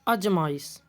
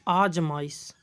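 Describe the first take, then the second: First: The first vowel is short. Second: The first vowel is long. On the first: The speaker calls it wrong. "अजमाइश नहीं होता" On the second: The speaker calls it right. "क्या होता है? आजमाइश"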